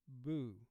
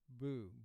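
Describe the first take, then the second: First: The vowel sounds like 'oo'. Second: The same.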